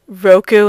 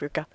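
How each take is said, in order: First: The vowels come out as o then u. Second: The vowels come out as u then o. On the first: The speaker calls it wrong. "I used to say Roku instead of Ruko" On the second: The speaker calls it right. "Even though it's Ruko"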